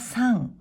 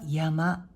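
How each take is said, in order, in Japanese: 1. 音読みで読みます。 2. 訓読みで読みます。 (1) "音読みは" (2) "訓読みは"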